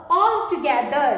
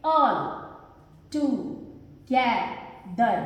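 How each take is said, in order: First: Said in the usual way. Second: "all, together" slowly, as all, to, ge, ther; four separate beats on "all, together"; syllable by syllable. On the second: Shown as a demonstration. Teacher demonstrates four syllables, "all, together" slow and split. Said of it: "four में चार syllables".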